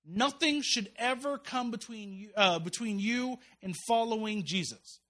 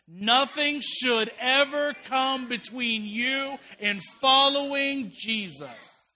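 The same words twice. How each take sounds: First: Slow, weighty key sentence with NOTHING leaned on; slow emphatic. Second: Drawn-out loud chant, everyone together; loud group recitation. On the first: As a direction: spell out every word slowly so it sinks in. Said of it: "I want you to hear this one sentence". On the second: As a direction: shout it slowly with the whole congregation. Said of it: "say that really loud with me". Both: Shown as a demonstration.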